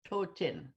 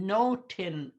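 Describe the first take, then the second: First: The word begins with a th sound. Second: The word begins with an n sound. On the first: This is the Moose Cree form. "the T H O with the accent on it" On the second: This is the Swampy Cree form. "in the Swampy Cree, because it's with an N"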